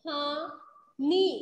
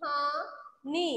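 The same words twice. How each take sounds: First: कहानी drawn out slowly and louder, rising; slow, loud reading. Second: Slow reading. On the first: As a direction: stretch कहानी for the class. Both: Shown as a demonstration. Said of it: "क्या पढ़ेंगे हम इसे?".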